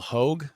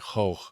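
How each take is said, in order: First: The name is said in a plain English way. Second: The name is said with a Dutch G sound. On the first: "I'm pretty sure that's how you pronounce it" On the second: "according to the Dutch pronunciation, it would be like Hoog"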